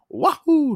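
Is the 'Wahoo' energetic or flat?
energetic. It is said with lively, energetic excitement.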